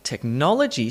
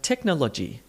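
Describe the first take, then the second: First: "technology" with the second syllable stressed, tech-NOL-ogy; native English stress. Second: "technology" without the emphatic stressed syllable; even out "technology", no lean on NOL; South Indian English stress. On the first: Teacher giving the native model of the word, stressed second syllable. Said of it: "a word like technology sounds like technology". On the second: Teacher showing how South Indian speakers say it, unstressed syllables. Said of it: "South Indian English speaker ... don't do this". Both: Shown as a demonstration.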